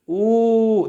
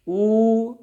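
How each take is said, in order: First: The vowel is held for an extra long time. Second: The vowel is held for a long time. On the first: "उससे ज्यादा" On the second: "ज्यादा"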